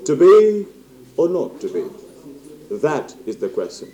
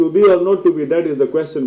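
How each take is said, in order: First: High, loud opening falling to a slow, hushed close; stage-actor Hamlet, drawn out and weighty; theatrical Hamlet. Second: Loud, high, rattled off without pauses; unsellable reading. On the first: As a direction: deliver it as a slow dramatic soliloquy with long pauses. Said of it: "اب آپ ایسے بولیں گے تو وہ بکے گا". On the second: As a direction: rush the line through with no drama. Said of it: "بولیں گے تو نہیں بکے گا". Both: Shown as a demonstration.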